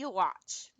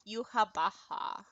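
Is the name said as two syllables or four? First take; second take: two; four. First: The name is said with two syllables, ending 'watch'. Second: The name is said with four syllables, ending 'baha'. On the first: The speaker calls it wrong. "I always called him Yuwatch" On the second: The speaker calls it right. "but it's like Yuhabaha, I guess"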